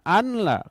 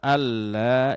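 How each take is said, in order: First: The n is sounded separately before the l. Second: The n merges fully into a doubled l. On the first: The speaker calls it wrong. "Jangan an la" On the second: The speaker calls it right. "Jadi yang benar alla ilaha illallah"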